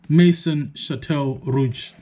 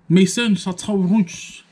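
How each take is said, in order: First: The name is said with an English accent. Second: The name is said with a French accent.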